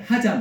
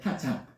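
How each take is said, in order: First: The word ends on an open vowel. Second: The word ends with a final k sound. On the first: The speaker calls it wrong. "하자 말고" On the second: The speaker calls it right.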